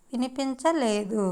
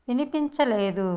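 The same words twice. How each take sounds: The two takes are said the same way.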